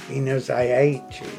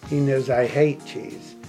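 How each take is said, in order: The two takes are said the same way.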